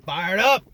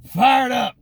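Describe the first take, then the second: First: Said in the usual way. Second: Higher and a bit louder "Fired up"; "Fired" hit hard, dropping at the end. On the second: Real, not acted. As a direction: punch it with leftover energy.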